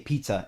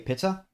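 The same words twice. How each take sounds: First: The first vowel is a long 'ee' sound. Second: The first vowel is a short 'ih' sound. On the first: "we say pizza in English, like pee" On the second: "German tends to say pizza"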